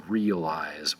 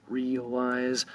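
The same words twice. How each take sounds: First: "realize" said in three syllables, REE-uh-lize; three-syllable pronunciation. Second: "realize" said in two syllables, REE-lize, higher pitched; two-syllable pronunciation. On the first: Teacher shows the rarer form, "realize" as three syllables. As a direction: separate the middle "uh" in "realize". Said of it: "I don't think anybody says three syllables". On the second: Teacher models the word for learners, "realize" as two syllables. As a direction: run "realize" together as two drawn-out beats, REE-lize. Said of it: "two syllables". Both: Shown as a demonstration.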